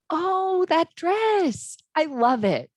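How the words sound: The voice sounds excited and happy. "You can hear the excitement and happiness"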